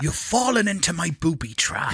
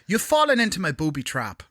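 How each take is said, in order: First: It is said in a West Country accent. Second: It is said in an Irish accent.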